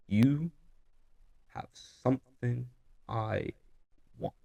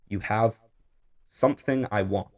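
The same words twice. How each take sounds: First: There are pauses between the words. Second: The words run together without pauses.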